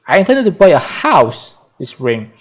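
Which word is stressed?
house. The stress is on the word house.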